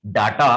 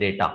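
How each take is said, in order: First: "data" said "daa-taa"; long "aa" in the first syllable of "data"; wrong pronunciation demo. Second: "data" said "day-taa"; an "ay" sound in the first syllable of "data"; correct pronunciation demo. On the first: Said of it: "तो this is not". ("data" को "डाटा" बोलें) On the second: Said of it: "this is the data". ("data" को "डेटा" बोलें) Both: Shown as a demonstration.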